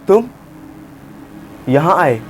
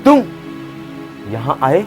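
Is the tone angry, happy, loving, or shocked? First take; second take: shocked; angry. First: It sounds shocked, pausing after the first word. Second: It sounds angry and harsh. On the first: "shock में बोलूं ... मैंने तुम बोलने के बाद थोड़ा पॉज लिया" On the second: "गुस्से में बोलना है"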